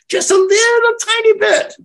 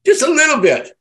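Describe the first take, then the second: First: Much higher and louder, squeaking out a tiny amount; high squeak for a tiny bit; tiny squeaky voice. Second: A bit less high, still raised and louder; little squeak. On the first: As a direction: make it sound teeny-tiny. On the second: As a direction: echo the tiny amount, squeaking. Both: Shown as a demonstration.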